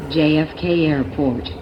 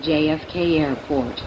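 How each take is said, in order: Both takes have the same delivery.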